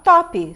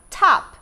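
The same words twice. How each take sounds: First: It is said with a Brazilian Portuguese accent. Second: It has an open vowel and an unreleased final P. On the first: "eu vou falar top" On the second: "em inglês eu vou pronunciar top. Ela é aberta, esse P eu não falo"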